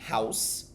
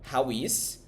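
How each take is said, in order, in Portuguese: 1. Fica unido numa sílaba só, como house. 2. É dito como duas palavras separadas.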